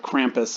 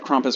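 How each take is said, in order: First: It is said in the American way. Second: It is said in a non-American way.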